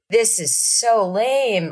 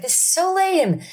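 First: Slow, drawn-out sulky line; bored kid. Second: Much higher whiny repeat; whiny kid. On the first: Mimicking bored kid at Osmond show, slow and sulky. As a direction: sound like a bored seven-year-old. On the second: Mimicking little kid whining at concert, much higher. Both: Retold or imitated.

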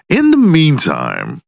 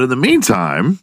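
First: High, drawn-out "in the meantime"; playful emphatic transition. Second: Said in the usual way. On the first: Pretend. Podcast host turning to talk about his week, playfully emphatic. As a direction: stretch "in the meantime" slowly and pitch it up. Repeats phrase with more flourish.

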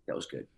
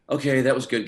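First: Low, soft, understated verdict; retold muted approval. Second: Higher, louder, decisive verdict; retold emphatic approval. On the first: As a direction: drop it low and quiet, as if reluctantly impressed. Casting director's muted first verdict, retold. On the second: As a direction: lift it up and out, imitating a convinced director. Casting director's final verdict, retold.

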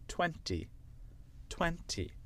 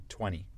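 First: British twenty with a crisp T; British demo, second T of twenty sounded; British accent. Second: American twenty, T dropped, like twenny; American accent, twenty without its second T. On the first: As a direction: say twenty the British way, twen-tee. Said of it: "avec l'accent british". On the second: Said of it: "avec l'accent américain". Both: Shown as a demonstration.

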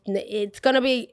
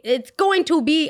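First: Said in the usual way. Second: "it's going to be" slow and higher, each word spelled out; emphatic rephrase. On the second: Retold or imitated. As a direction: pronounce "going to" in full, exasperated. Exasperated rephrase explaining to customer.

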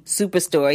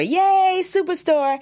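First: Said in the usual way. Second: High-pitched celebratory yay; squealed hooray for your own show; excited cheer. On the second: Real, not acted. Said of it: "The reason why I went yay".

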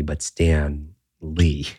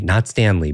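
First: "Stan Lee" drawn out very slowly and a bit softer, with an awed fall; slow, hushed, reverent "Stan Lee"; grand reverent name. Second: Said in the usual way. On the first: Shown as a demonstration. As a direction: savor "Stan Lee" like you're naming a legend.

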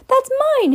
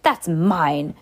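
First: Put-on much higher, loud boy's voice; high loud young Harry snatching back his letter; Harry's voice. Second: Said in the usual way. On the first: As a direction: jump way up to Harry's pitch. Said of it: "Harry said". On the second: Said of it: "I was uncle, being Uncle Vernon".

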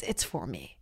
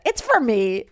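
First: Much lower and softer, murmured to herself; quiet aside. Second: Said in the usual way. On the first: Shown as a demonstration. Comic admitting the show is for herself, low soft murmur. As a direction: drop it to a low private murmur. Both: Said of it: "repeated, second take hushed".

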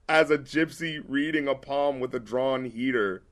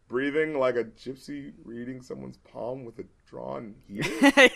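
First: Said in the usual way. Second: Softer start, then "heater?" leaps up with a laugh; incredulous reread. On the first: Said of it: "this sounds clever". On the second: Shown as a demonstration. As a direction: reread the line in disbelief. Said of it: "it's like, wait".

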